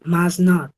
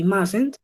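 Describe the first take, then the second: First: "must not" as two separate words, short uh vowel; full form must not. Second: "mustn't" run together as one word, short uh vowel, masent; contracted mustn't. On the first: Teacher modelling for the class: full "must not". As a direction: say "must not" in full, each word clear. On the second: Teacher modelling for the class: one-word "mustn't". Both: Shown as a demonstration. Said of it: "The pronunciation".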